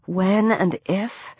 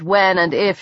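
First: Softer, drawn-out questioning WHEN AND IF; sceptical echo. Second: Said in the usual way. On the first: A narrator's reading. Heroine doubting her own escape plan, sceptical echo. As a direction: slowly query your own words, rising at the end.

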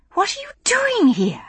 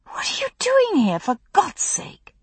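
First: Said in the usual way. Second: Woman hiding under a tree, fierce and whispered; urgent whisper. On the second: A narrator's reading. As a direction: hiss the question so nobody hears. Hidden under the tree, confronting him.

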